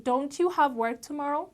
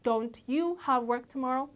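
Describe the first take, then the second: The two takes are said the same way.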